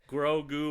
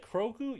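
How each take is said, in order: First: The name begins with a G sound. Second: The name begins with a K sound.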